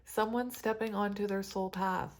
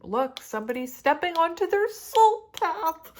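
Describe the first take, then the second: First: Said in the usual way. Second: Much higher, much louder joyful squeal; real excited cry; overjoyed outburst. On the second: Real, not acted. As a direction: burst out with delight at the card.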